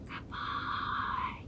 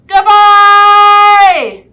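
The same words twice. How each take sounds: First: The word is said very quietly. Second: The word is said very loudly. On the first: "Let's say goodbye as quiet as we can" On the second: "Let's say goodbye as loud as we can"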